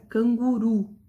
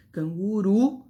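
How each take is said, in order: First: Said in the usual way. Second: "Canguru" with its last syllable RU pushed and held; stress on final RU. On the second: Shown as a demonstration. Teacher shows the last syllable is tonic, RU stressed in "Canguru". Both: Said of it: "a sílaba tônica uru".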